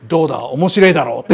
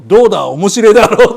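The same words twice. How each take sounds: First: Lame joke punchline. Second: Louder, proud punchline with a laugh; lame joke punchline. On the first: Retold or imitated. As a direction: mumble the punchline proudly. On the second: Shown as a demonstration. Demoing the corny punchline for later use, louder. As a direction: sell the bad joke, louder. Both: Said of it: "こういう下手なジョークの言い方".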